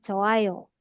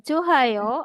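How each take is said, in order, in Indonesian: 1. Tidak ada konsonan yang terdengar sebelum 'ayo'. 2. Bunyi h terdengar sebelum 'ayo'. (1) "tapi bacanya Joayo" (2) "jangan dibaca Johayo"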